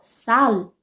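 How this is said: The word ends with a clear L sound. This is how people in southern Brazil and Portugal say it. "vão pronunciar a palavra sal com L no final"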